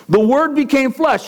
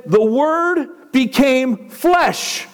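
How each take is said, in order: First: Said in the usual way. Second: "The Word became flesh" drawn out very slowly, each word weighed; "The Word became flesh" spoken slowly and solemnly, with a falling end on "flesh"; slow solemn reading. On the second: Shown as a demonstration. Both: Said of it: "Then it said".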